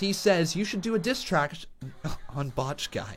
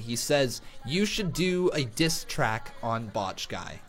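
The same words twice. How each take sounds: First: The words run together and sound slurred. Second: Each word is pronounced clearly and separately. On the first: The speaker calls it wrong. "slurring the words" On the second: The speaker calls it right. "without slurring the words again"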